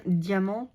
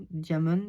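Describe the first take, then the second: First: "diamant" said the French way, nasal ending; French pronunciation. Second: "diamond" said as an English word; English-style pronunciation. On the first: Crafter unsure of her product's name, French pronunciation. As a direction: say "diamant" with a silent final t. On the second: Crafter unsure of her product's name, English-style pronunciation. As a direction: say "diamond" with the final consonants sounded. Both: Real, not acted. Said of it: "je sais pas comment on dit".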